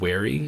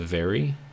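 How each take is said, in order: First: The word starts with a W sound. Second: The word starts with a V sound. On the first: This is how the coworker said it. "she would say like wary" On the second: This is the usual way to say it. "instead of very"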